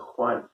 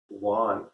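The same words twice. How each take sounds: First: The name begins with a strong H sound. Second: The name begins with a soft W sound. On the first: "there's a very H sound" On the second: "so I say Juan"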